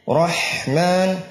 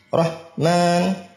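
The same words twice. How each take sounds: First: The h sound flows on with breath. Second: The h sound is stopped abruptly. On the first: The speaker calls it right. "ha-nya dirakhawahkan" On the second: The speaker calls it wrong.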